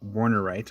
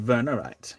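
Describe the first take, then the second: First: The word starts with a W sound. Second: The word starts with a V sound.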